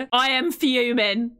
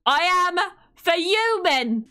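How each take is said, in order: First: Slow, put-on fuming; drawn-out mock annoyance. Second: Slow, higher, hammed-up crying wail; a dramatic pretend sob of rage; mock wailing fury. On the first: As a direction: say it like you're seething but joking. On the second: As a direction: wail it like a fake tantrum.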